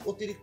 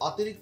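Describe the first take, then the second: First: The first vowel is a closed 'o' sound. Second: The first vowel is an open 'aw' sound. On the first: The speaker calls it right. "তাহলে এটার উচ্চারণ কি হচ্ছে অতি" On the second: The speaker calls it wrong. "আমি কি অতিরিক্ত কথা বলি না"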